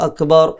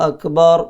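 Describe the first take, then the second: Both takes have the same delivery.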